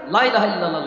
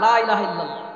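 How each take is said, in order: First: The vowel of 'la' is clipped short and quick. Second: The vowel of 'la' is drawn out long. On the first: There are surely other gods besides Allah. The speaker calls it wrong. "যদি ফোর্সে পড়া হয় তাড়াতাড়ি করে" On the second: There is no god but Allah. The speaker calls it right. "এক আলিফ টান দাও"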